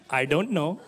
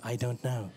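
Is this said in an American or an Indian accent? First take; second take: Indian; American. First: It is said in an Indian accent. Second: It is said in a flat American machine voice. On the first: A caller answers the automated phone system. "this Indian accent" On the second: An automated phone system lists an answer option. "Welcome to Dell"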